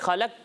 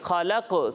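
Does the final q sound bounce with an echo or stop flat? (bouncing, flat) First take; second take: flat; bouncing. First: The final q sound stops flat without echo. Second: The final q sound bounces with an echo. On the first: The speaker calls it wrong. "خلق تو نہیں پڑھیں گے" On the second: The speaker calls it right. "یعنی اسے پڑھیں گے خلق تو"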